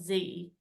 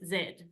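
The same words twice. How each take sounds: First: The letter is said the American way. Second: The letter is said the British way. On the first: The speaker calls it wrong. "it's not Z" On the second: The speaker calls it right. "it's Z. That's how we say it, like the British"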